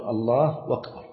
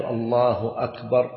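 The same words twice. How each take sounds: First: "الله أكبر" joined as "Allaahu-wakbar"; hamza turned waw. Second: "الله أكبر" with a distinct glottal catch opening "أكبر"; clear hamza. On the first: Teacher showing what people say instead, hamza softened to waw. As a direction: replace the catch opening "أكبر" with a w. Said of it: "يقلبون الهمزة واوا". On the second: Teacher giving the form people skip, hamza fully sounded. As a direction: separate "Allaahu" from "akbar" with a full hamza. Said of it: "لا يحقق الهمزة". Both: Shown as a demonstration.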